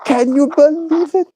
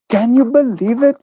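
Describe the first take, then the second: First: Much higher, cartoonish squeal of amazement; exaggerated mock disbelief. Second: High, playful can-you-believe-it; mock disbelief. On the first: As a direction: push the fake shock over the top. Repeats it even higher. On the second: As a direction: tease the chat with fake amazement.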